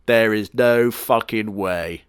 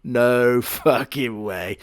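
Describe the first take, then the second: First: Slow, weighted disbelief on no; stunned disbelief. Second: Slow, laughing through no fucking way; laughing disbelief. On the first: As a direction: drag out no in disbelief. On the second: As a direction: break into a laugh mid-line. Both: Real, not acted. Disbelief at cat backstory.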